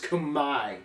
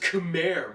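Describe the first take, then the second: First: The R sound is silent in the word. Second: The R sound is pronounced in the word. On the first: The speaker calls it right. "R is silent, and the E is an I" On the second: The speaker calls it wrong. "All this time you thought it was Khmer"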